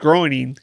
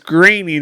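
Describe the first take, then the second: First: The first syllable sounds like 'groan'. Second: The first syllable sounds like 'grain'. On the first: The speaker calls it wrong. "I read it as groaning" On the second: The speaker calls it right. "graining is the way it's uh, enunciated"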